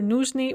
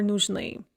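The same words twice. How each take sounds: First: Нужны with the weight on ну; stress on first syllable. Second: Нужны with the weight on final ны; stress on second syllable. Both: Shown as a demonstration. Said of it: "stress can be on either syllable".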